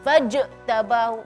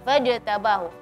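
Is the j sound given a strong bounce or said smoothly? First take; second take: strong bounce; smooth. First: The j gets a strong, raised bounce. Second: The j is said smoothly without a bounce. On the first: The speaker calls it wrong. "memberi penegasan atau suara ditinggiin ... enggak" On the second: The speaker calls it right. "Dia fajtabahu"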